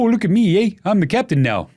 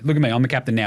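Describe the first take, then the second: First: It is said in a Canadian accent. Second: It is said in a plain accent.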